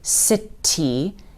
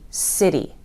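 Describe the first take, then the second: First: The middle consonant is a clear T sound. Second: The middle consonant is a soft D sound. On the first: The speaker calls it wrong. "You're not going to hear us say city" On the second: The speaker calls it right. "It sounds like a D"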